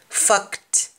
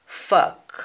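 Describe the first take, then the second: First: "Fact" high with final T; "Fact" with a clear T; English pronunciation. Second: "fact" whispered as "fak", T dropped; "fact" without the T; Jamaican pronunciation. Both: Shown as a demonstration. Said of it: "We don't pronounce the T when spoken in Jamaican".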